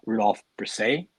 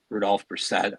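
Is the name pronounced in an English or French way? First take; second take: French; English. First: The name is pronounced in a French way. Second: The name is pronounced in an English way.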